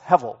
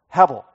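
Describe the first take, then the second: First: The middle consonant is a V sound. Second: The middle consonant is a B sound. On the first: The speaker calls it right. "it probably is better pronounced hevel with a V" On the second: The speaker calls it wrong. "That is the word hebel"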